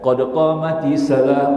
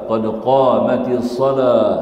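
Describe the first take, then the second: First: The phrase is grouped as qadqah mati salah. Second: The phrase is grouped as qad qamatis salah. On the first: The speaker calls it wrong. "Hang baca tak betul" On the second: The speaker calls it right. "Belajar lah betul-betul yang sebut ni"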